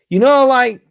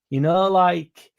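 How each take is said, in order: First: It is said loudly and forcefully. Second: It is said quietly and softly.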